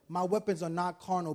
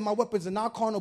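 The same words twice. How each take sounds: First: It is spoken at a slower, deliberate pace. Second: It is spoken at a faster, normal pace.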